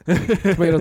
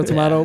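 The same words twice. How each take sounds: First: "Tomato" said to-MAY-to, long A; "Tomato" with the American ay vowel. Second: "tomato" said to-MAH-to, open ah vowel; "tomato" the British way, with ah. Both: Shown as a demonstration.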